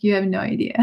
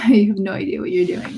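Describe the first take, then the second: First: Said in the usual way. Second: Scoffing with a laugh; laughing retort. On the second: Retold or imitated. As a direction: laugh it off, half disbelieving. Laughing retort at able-bodied parkers.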